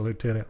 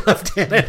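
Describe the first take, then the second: First: It is said with an American pronunciation. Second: It is said with a British pronunciation. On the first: "the American pronunciation Lieutenant" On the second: "I don't know why we say Lieutenant"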